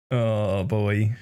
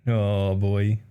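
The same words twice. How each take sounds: The two takes are said the same way.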